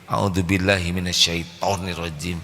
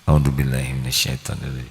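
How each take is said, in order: First: It is said in a provoking, heated way. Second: It is said in a calm, sincere way. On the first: It inflames the angry person further. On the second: It is a sincere plea for protection.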